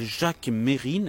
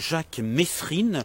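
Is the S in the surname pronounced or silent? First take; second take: silent; pronounced. First: The S in the surname is silent. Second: The S in the surname is pronounced. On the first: The speaker calls it right. "qui a un S qui ne se prononce pas" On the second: The speaker calls it wrong. "que les journalistes appelaient euh, comme par erreur"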